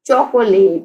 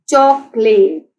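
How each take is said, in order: First: Said in the usual way. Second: chocolate slowly sounded out in parts; syllable by syllable. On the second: Shown as a demonstration. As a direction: stretch each syllable of chocolate. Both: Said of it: "chocolate के three syllables हैं".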